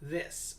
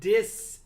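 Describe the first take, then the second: First: The word begins with a TH sound. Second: The word begins with a D sound. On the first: The speaker calls it right. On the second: The speaker calls it wrong.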